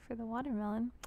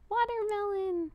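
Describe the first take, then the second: First: Said in the usual way. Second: High, loud delighted shout of the word "Watermelon"; a thrilled thank-you yelp of "Watermelon"; excited cry. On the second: Real, not acted. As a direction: squeal "Watermelon" out with joy. Viewer sends a watermelon gift.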